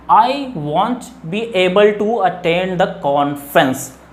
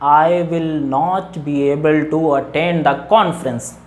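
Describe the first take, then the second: First: The negative is said as one contracted word. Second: The negative is said as two full words.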